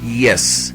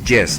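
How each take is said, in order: First: The first sound is a smooth glide with no friction. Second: The first sound is a harder consonant with friction. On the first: The speaker calls it right. "La pronunciamos poniendo la lengua cerca de nuestro paladar. Decimos yes" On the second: The speaker calls it wrong. "No decimos y, yes, no decimos así"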